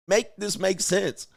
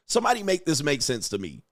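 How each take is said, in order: First: "Make this make sense" drawn out slowly, pitched higher, each word leaned on; slow exasperated plea. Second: Said in the usual way. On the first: Real, not acted. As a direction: plead slowly, hitting every word.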